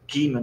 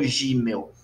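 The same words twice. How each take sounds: First: Gimel said "Guimel", G as in gato; hard G. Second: Gimel said "Jimel", with a zh sound; soft G, wrong form. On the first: Teacher giving the right Hebrew name, Gimel with hard G. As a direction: start Gimel on a dry, hard G. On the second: Teacher showing the mistake, Gimel with soft zh at the start. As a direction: soften the G of Gimel as in girafa. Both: Shown as a demonstration. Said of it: "Gimel, não Gimel".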